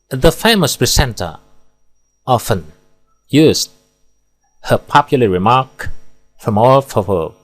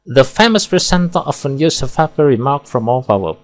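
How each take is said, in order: First: There is a pause after every single word. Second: It is read straight through without any pauses. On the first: "terlalu banyak pemenggalan, tidak efektif, dan bertele-tele. Di sini pemenggalannya per kata" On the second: "Kita baca tanpa pemenggalan, akan terdengar monoton dan membosankan"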